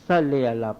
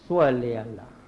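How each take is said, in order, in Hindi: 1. salle की शुरुआत हल्की, सादी s ध्वनि से होती है। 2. salle की शुरुआत भारी, sw जैसी s ध्वनि से होती है। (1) "एस एल का हम सल्ले अल्लाह पढ़ते हैं" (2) "एक्चुअल इसका प्रोनाउंस है एस डब्ल्यू एल"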